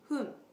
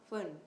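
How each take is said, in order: First: The word starts with a soft breathy H sound. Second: The word starts with an English F sound. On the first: The speaker calls it right. "make sure you pronounce hun" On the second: The speaker calls it wrong. "not fun"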